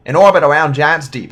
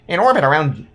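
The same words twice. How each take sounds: First: Cowboy voice. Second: Said in the usual way. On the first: Acted. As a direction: belt it out like a cowboy. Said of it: "like, a cowboy voice". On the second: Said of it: "I normally do this in".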